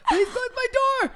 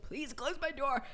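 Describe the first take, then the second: First: High-pitched squeaky mock plea; barely getting words out. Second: Soft, strained mock plea through a laugh; barely getting words out. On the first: Begging him to shut the door before mom hears, high squeezed-out plea. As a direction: imitate a desperate squeal, far above normal voice. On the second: Retelling a plea to shut the bedroom door, barely getting words out. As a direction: imitate squeezing out a hushed plea. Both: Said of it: "barely getting words out".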